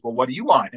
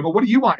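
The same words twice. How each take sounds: First: Said in the usual way. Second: Retold question, pitched high; insistent repeated question. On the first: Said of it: "Heidi would ask the kids". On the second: Heidi keeps asking the kids what they want, insistent. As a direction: imitate her asking once more, high and persistent. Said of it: "She kept on going".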